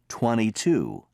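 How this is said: The T in twenty is dropped. "Americans drop the T and say"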